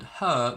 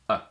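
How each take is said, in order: First: The word is said in full with h. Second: The word shrinks to a single weak vowel. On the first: "we pronounce it with a strong form, so we pronounce every single sound" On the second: "or even simply a"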